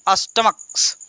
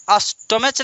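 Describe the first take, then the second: First: अस्टमक्स ending in a crisp ks; right plural. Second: अस्टमच with a ch ending and no plural s; wrong plural. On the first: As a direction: say अस्टमक्स with ks at the end. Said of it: "अस्टमक्स कहेंगे". (अस्टमक्स, अंत में क्स) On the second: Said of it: "अस्टमच नहीं". (अस्टमच, गलत च वाला रूप) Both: Shown as a demonstration.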